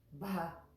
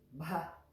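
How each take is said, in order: First: The b is said with a puff of air. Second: The same.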